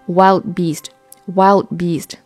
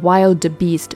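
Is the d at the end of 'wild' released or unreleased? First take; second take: unreleased; released. First: The d in 'wild' is not released. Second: The d in 'wild' is fully released. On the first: The speaker calls it right. "前面的那个爆破音就要进行不完全爆破" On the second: The speaker calls it wrong. "我们不用读成wild beast，这样就显得有点累赘"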